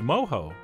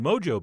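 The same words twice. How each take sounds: First: The middle consonant is an h sound. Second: The middle consonant is an English j sound. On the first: The speaker calls it right. "It is mojo. So that's how I will be pronouncing it" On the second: The speaker calls it wrong. "I really do want to call it grilled mojo beef. But apparently we're not allowed to"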